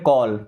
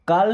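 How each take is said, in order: First: The vowel is a rounded 'aw' sound. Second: The vowel is a long open 'aa' sound. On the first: The speaker calls it right. "ए का उच्चारण करते हैं औ की मात्रा" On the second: The speaker calls it wrong. "तो इसे काल नहीं पढ़ते"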